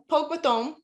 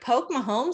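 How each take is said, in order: First: The second part sounds like 'mathome' with a th. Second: The second part sounds like the name Mahomes. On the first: The phrase is said as locals say it. The speaker calls it right. "the way you say it is" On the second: The phrase was misheard. The speaker calls it wrong. "what I thought he said was Pogue Mahomes"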